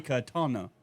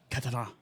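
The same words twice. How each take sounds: First: Katana in ordinary English sounds, no accent; unaccented, matter-of-fact "katana"; plain American pronunciation. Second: Put-on katana with a touch of foreign accent; mock-authentic "katana"; imitated accented katana. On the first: Shown as a demonstration. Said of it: "Say katana". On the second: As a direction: mimic someone over-pronouncing "katana". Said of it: "added a little bit of accent".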